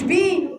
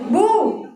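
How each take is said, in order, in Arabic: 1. المقطع يُنطق بحركة 'i'. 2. المقطع يُنطق بحركة 'u'. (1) "مش بي" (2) "يلا ضمي"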